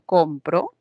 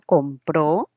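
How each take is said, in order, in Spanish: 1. El acento está en la primera sílaba. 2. El acento está en la última sílaba. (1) "hay un acento, una fuerza de voz en esta sílaba" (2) "la mayor fuerza de voz ya se produce en la última"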